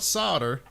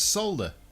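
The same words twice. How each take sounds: First: The L sound is left out. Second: The L sound is clearly pronounced. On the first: The speaker calls it wrong. "It's not solder" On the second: The speaker calls it right. "No, it's not. It's solder"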